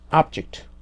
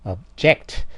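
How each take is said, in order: First: The stress is on the first syllable. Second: The stress is on the second syllable. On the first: It is a noun. "명사면은 앞에가 강해지니까 앞" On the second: It is a verb. "약해지고 뒤에가 강해져서"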